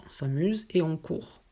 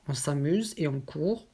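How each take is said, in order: Both takes have the same delivery.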